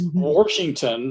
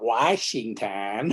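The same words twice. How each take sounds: First: An R sound follows the first vowel. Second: No R sound follows the first vowel. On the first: The speaker calls it right. "my Southern Indiana accent ... it's got to have that R in there" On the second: The speaker calls it wrong.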